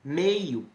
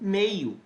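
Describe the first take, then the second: The two takes are said the same way.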